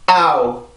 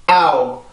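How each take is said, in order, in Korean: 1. 첫 모음에 강세가 있고, 둘째 모음은 약해져요. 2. 첫 모음에 강세가 있고, 둘째 모음은 약해져요.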